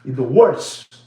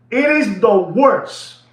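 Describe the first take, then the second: First: Said in the usual way. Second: "is" hit louder and drawn out, It is the worst; slow, emphatic "It IS the worst"; stress on is. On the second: Shown as a demonstration. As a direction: lean hard on "is".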